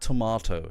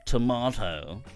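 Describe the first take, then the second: First: It is said in a neutral tone. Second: It is said with a disdainful tone.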